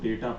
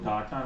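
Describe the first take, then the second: First: The first vowel sounds like 'ay' in day. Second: The first vowel sounds like 'ah' in father. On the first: The speaker calls it right. "इसको डेटा पढ़ते हैं" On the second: The speaker calls it wrong. "इसको डाटा नहीं पढ़ते हैं"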